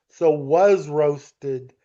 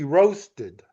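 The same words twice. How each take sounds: First: Slow, leaning on "was" before "roasted"; stress on was. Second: Said in the usual way. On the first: Shown as a demonstration. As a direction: stretch it out, land on "was". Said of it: "was is the helping verb". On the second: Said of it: "that's not the complete verb".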